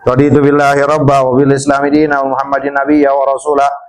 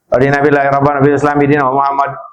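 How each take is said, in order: First: It is slow and clear, each word fully pronounced. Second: It is rushed and mumbled, with words run together. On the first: The reader means the words being said. The speaker calls it right. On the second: The reader only wants to reach the required count. The speaker calls it wrong.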